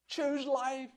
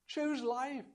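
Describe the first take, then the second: First: It is said with intense, pleading feeling. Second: It is said with intense, pleading feeling.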